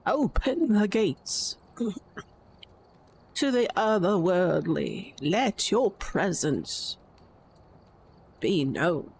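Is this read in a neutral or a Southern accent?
Southern. It is read in a Southern American accent.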